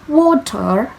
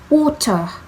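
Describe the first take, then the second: First: It is said in an American accent. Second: It is said in a British accent.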